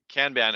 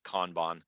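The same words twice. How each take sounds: First: It is said with an English pronunciation. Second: It is said with a Japanese pronunciation. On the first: "but I don't do that" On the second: "if you're Japanese, I'm told the proper way to say it is Kanban"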